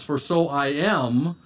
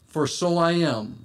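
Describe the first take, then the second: First: "For so I am", drawn out slowly for emphasis; slow down and lean on "so I am"; emphatic I AM. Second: Said in the usual way. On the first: Shown as a demonstration. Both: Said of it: "in the emphatic place in the sentence".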